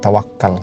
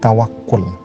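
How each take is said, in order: First: The last syllable has an a vowel. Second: The last syllable has an u vowel. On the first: The speaker calls it wrong. "bukan tawakal" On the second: The speaker calls it right. "yang lebih pas sebenarnya nyebutnya adalah tawakul"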